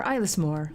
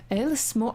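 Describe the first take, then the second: First: Ilis said with a long "eye" opening, EYE-liss, lower; corrected pronunciation attempt. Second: Alis said with a short "eh" opening, like ELL-iss; first pronunciation attempt. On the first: Player settling on the island's name, Ilis as EYE-liss. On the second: Player trying out the island's name, Alis as ELL-iss. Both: Shown as a demonstration. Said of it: "I could use some pronunciation".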